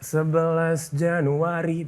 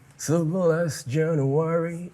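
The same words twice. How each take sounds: First: The R is pronounced plainly and clearly. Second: The R is pronounced softened and imperfect. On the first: "biasa banget" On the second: "itu baru [name]"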